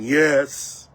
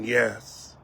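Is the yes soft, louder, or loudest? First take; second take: loudest; louder. First: It is said loudest of all. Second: It is said louder.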